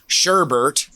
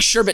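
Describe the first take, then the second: First: The second syllable has an added R sound. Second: The second syllable has no R sound. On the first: The speaker calls it wrong. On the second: The speaker calls it right.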